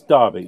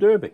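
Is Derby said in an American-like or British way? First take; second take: British; American-like. First: Derby is said in the usual British way. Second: Derby is said in an American-like way. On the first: This is how the speaker says it. "as much as I would say it's Derby" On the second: This is how an older relative said it. "my grandfather always called them Derby"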